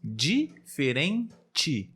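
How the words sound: It is said in a Rio de Janeiro accent. "aqui na região sudeste, no estado do Rio de Janeiro, normalmente falamos assim"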